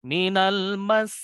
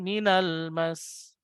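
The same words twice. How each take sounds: First: Minal mas slow, lifted on mas; stressed doubling. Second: Minal mas said slowly without the lift on mas; don't do minal mas this way; wrong way. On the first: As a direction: lean on mas and raise it. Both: Shown as a demonstration.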